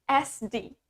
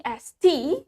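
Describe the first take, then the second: First: T turned into a soft D; American T as D. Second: T said as a clear T, rising; British T sound. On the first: Teacher showing viewers the American T, voiced D sound. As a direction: say "D" in place of T, softly. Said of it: "While in American accent, we pronounce". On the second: Teacher showing viewers the British T, clear T sound. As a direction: keep the T a crisp "tee". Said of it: "In British accent, we pronounce the T". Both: Shown as a demonstration.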